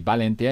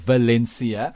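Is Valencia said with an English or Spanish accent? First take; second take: Spanish; English. First: It starts with a b sound and a lisped c. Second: It starts with a v sound and a plain s. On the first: This is how Spanish speakers say it. "because a V is a B. Valencia instead of" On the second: This is how English speakers say it. "instead of Valencia"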